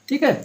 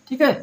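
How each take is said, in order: No difference in how they are said.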